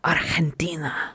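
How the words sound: It is said with a Spanish-style accent.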